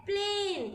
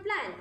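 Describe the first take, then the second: First: "प्लेन" with a drawn-out "ay" vowel; long A sound. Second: "प्लान" said quickly with short "a" as in map; short A sound. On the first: Teacher shows what adding E does, long sound. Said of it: "ये long sound हो गया". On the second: Teacher shows the word before E is added, short sound. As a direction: say "प्लान" with a brief, short vowel. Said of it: "जल्दी से बोला गया short sound". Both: Shown as a demonstration.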